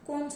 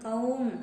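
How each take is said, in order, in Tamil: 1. உயிரெழுத்து ஒரு சாதாரண 'oh' ஒலி. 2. உயிரெழுத்து ஒரு சறுக்கும் 'ow' ஒலி. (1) "நம்ம பேச்சு வழக்குல கவுன்னு சொல்லாம கோன் சொல்லிக்கலாம்" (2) "இங்க கவு என் கவுன் அப்படின்னு இருக்கும்"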